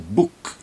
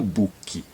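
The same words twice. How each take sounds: First: The word ends cleanly on the final consonant. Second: An extra vowel sound follows the final consonant. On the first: The speaker calls it right. "Então é book" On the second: The speaker calls it wrong. "não book"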